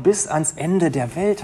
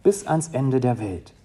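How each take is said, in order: First: Slow, lifted, ending on a rise; slow solemn quote. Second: Said in the usual way. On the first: Retold or imitated. Preacher quoting Jesus' promise to the congregation, slow and lifted. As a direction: lay each word out slowly as a promise. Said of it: "hat er gesagt".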